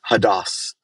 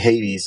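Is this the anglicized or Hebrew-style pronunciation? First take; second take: Hebrew-style; anglicized. First: It is said in the original Hebrew way. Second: It is said in the usual English way. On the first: The speaker calls it right. "but it's Hadas" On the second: The speaker calls it wrong. "when we say Hades, everybody knows what we're talking about"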